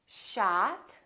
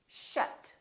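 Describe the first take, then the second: First: "Shot" as "shaht", rising; long open "ah" in "Shot"; tense ah vowel. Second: "shut" with a short uh; brief, relaxed vowel in "shut"; neutral uh vowel. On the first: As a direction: model "Shot" with lifted ending. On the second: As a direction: model "shut", quick and lax. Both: Shown as a demonstration. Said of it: "with ah and uh".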